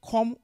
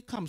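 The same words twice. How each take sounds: First: "come" said as "kom"; Nigerian pronunciation. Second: "come" said as "kahm"; own pronunciation. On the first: Showing how Nigerians say it, "come" as "kom". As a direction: round the vowel of "come" into an "o". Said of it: "Nigerians say". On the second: Contrasting her own way with Nigerians', "come" as "kahm". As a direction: open the vowel of "come" to an "ah". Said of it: "I say". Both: Shown as a demonstration.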